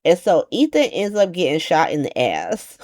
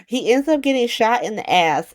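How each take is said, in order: First: Said in the usual way. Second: Higher incredulous retelling after a laugh; amused disbelief. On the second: Real, not acted. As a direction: say it again like you can't believe it.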